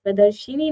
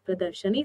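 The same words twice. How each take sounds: First: प्रदर्शिनी said pradarshini, i after sh; louder stressed प्रदर्शिनी as the error; wrong pronunciation. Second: प्रदर्शनी said pradarshani, a after sh; calm प्रदर्शनी with short a; correct pronunciation. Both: Shown as a demonstration. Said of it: "प्रदर्शिनी नहीं".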